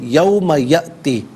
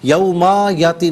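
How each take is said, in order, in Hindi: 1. पहले शब्द का आख़िरी स्वर छोटा पढ़ा जाता है। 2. पहले शब्द का आख़िरी स्वर खींचकर पढ़ा जाता है।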